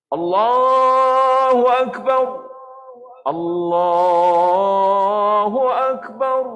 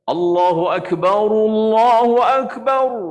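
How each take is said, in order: First: Akbar ends unvoweled, with a brief breathless pause. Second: Akbar takes a u vowel, joined without pause. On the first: "Maksud saktah tu kita berhenti seketika tanpa bernafas" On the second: "Boleh kita bacakan ra itu dengan baris hadapan"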